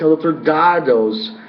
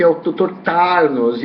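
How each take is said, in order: First: Slow "Dardos" with a D in place of the T and the R dropped; retold child's "doutor Dardos" with D sounds. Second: Slow "Tarnos" with a clear T and an R before the final s; retold "doutor Tarnos" with T and R sounded. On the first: The girl correcting her mother, said as "Dardos". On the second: The mother telling her daughter the name, said as "Tarnos". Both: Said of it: "discussão sobre a pronúncia do nome".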